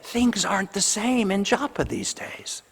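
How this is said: It is said in a joyful, celebrating tone. The change is welcomed. "joyfully saying it with a different tone of voice"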